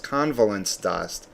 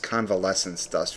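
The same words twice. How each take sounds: First: The first word sounds like 'covalence'. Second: The first word sounds like 'convalescence'. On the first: The speaker calls it right. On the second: The speaker calls it wrong. "I have a horribly bad habit of pronouncing this"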